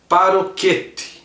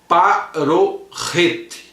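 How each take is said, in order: First: The middle consonant is a hard K sound. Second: The middle consonant is a throaty R sound. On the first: This is how a Portuguese reader would read it. The speaker calls it wrong. "se nós fôssemos ler no português, seria paroquete" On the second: This is the original Hebrew pronunciation. The speaker calls it right. "no hebraico a pronúncia é parorrete"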